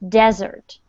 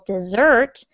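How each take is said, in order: First: The stress is on the first syllable. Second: The stress is on the second syllable. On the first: "the stress is on the first syllable" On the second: "if you put the stress on the second syllable"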